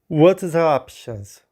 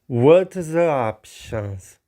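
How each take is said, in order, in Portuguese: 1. Ela é dita em velocidade normal. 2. Ela é dita devagar.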